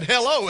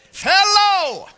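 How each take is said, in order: First: Said in the usual way. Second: Much higher and louder, a mock yell; shouted hello. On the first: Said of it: "I said". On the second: A boy yells hello at the foreigner, mock shout. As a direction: belt out hello as if volume helps understanding. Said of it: "you just speak louder".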